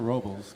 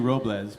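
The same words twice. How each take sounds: First: Robles is said with an English-style ending. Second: Robles is said with a Spanish-style ending. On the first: This is how the name is actually said locally. "but Paso Robles" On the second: This is how the name should properly be said. "Which should be Robles"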